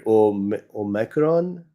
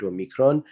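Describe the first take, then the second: First: Omicron as "oh-MACK-ron"; "mac" pronunciation. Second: Omicron as "oh-MEE-kron"; short-i pronunciation. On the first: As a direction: stumble into Omicron with "mack" in the middle. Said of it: "some people are calling it". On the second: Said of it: "some are calling it Omicron". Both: Shown as a demonstration.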